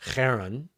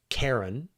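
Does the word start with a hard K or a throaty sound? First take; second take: throaty sound; hard K. First: It starts with a rough throat-clearing sound. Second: It starts with a hard K sound. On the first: "the original Greek one, which kind of sounds like you're clearing your throat" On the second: "the English-sized version of it ... where you give this hard K"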